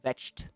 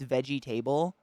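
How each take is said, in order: First: The middle syllables are squeezed out. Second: Every syllable is pronounced, as spelled. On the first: "but we pronounce it just vetched" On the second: "if you look at the what it is, it's veggie table"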